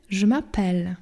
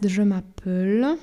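First: "je m'appelle" ending on an open "pel"; open è, correct form. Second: "je m'appelle" with a short closed e and the final L clipped off; closed e, wrong form. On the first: Teacher gives students the right "je m'appelle", open E. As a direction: give "je m'appelle" a clear open E before the double L. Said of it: "mamy je m'appelle". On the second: Teacher shows students the wrong "je m'appelle", closed and clipped. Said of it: "bo tak by to brzmiało". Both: Shown as a demonstration.

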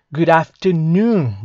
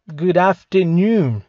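First: Slow, clear repeat of "Good afternoon"; slow model repeat. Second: Slow, clear "good afternoon"; slow model phrase. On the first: Teacher repeating "Good afternoon" slowly for students. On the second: Teacher modelling "good afternoon" slowly for students. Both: Shown as a demonstration. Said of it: "vai repetindo".

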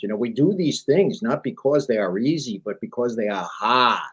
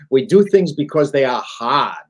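First: Put-on light Boston accent on the JFK quote; Massachusetts accent, lightly done; JFK impression. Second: Louder, punched restatement of the quote; strong stress on "hard", said louder; emphatic restatement. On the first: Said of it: "in his inimitable Massachusetts accent". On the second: Shown as a demonstration. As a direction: hit "hard" with conviction.

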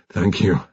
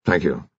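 First: Strained, groaning thanks; pained groan. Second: Understated nervous thanks, low; nervous gabble. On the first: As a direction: thank them through the pain. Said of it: "he groaned". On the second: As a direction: gabble it out awkwardly. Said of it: "gabbled Commander Syce nervously". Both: A narrator's reading.

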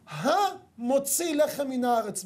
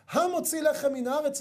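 First: המוציא לחם מן הארץ drawn out very slowly, voice near tears; slow blessing. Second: Said in the usual way. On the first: Shown as a demonstration. Preacher reciting the bread blessing, slow and tearful. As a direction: linger on every word of the blessing, almost weeping. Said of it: "אנחנו מברכים". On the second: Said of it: "צריך לכוון על עניין הפרנסה".

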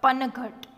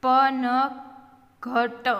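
First: Said in the usual way. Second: Slow, every letter with its vowel; sounded out. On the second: Shown as a demonstration. Teacher spelling for beginning readers, sounded out. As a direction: stretch પનઘટ out as pa-na-gha-ta.

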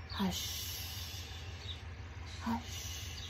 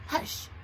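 First: Long, whispered HUSH; very calm. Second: Short, abrupt HUSH; not gentle. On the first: Teacher hushing as if to a baby or kitty, very calmly. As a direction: breathe "Hush" out softly, stretching the sh. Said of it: "We're saying it very calmly". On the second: Teacher showing how not to say "Hush", short and abrupt. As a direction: cut "Hush" short with little trailing sh. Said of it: "We're not saying it". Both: Shown as a demonstration.

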